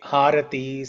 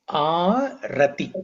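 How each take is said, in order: First: Three syllables, beginning with an h sound. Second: Three syllables, beginning with a vowel. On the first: The speaker calls it wrong. "Some people say Harati" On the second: The speaker calls it right. "the correct word is Arati"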